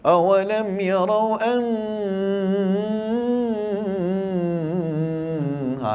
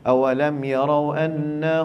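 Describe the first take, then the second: First: The nasal hum is stretched very long. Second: The nasal hum is held only briefly. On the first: The speaker calls it wrong. "dia bagi hantam sampai lima harakat" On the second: The speaker calls it right. "Dah dua je, bagi dua je"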